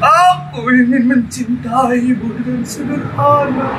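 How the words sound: It is read in an exaggeratedly sad, mournful way. "Atau disedih-sedihkan"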